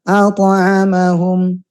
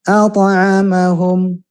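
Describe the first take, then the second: The two takes are said the same way.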